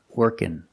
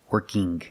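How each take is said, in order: First: It ends in a plain n sound. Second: It ends with an audible hard g sound. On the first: "Or I can make the N sound" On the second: "But I cannot say working, working. This is not correct. It sounds strange"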